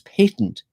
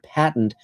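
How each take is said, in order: First: It is said with a British pronunciation. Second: It is said with an American pronunciation. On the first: "in England" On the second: "in America"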